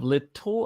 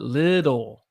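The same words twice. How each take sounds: First: The middle consonant is a clear T sound. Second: The middle consonant is a soft D sound. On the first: "instead of little" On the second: "I take the two T's and I make them a D"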